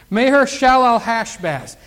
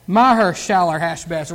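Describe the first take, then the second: First: Said in the usual way. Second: Maher said as "MAH-her", with an ah; alternative pronunciation. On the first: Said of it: "It's hard to say, isn't it?". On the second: Shown as a demonstration. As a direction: open the first vowel of Maher to AH, lower pitch. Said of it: "Well, I would pronounce that".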